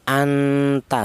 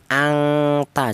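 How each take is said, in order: First: The nasal before the t sounds like n. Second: The nasal before the t sounds like ng. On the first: The speaker calls it right. "bunyi yang dihasilkan vokalnya itu berupa huruf n n ya, n double" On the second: The speaker calls it wrong. "jangan ng, jangan eng"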